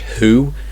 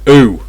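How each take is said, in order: First: The H sound is pronounced at the start. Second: The H sound is dropped at the start. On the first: "who should be H, who" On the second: "Cockney English, ooh"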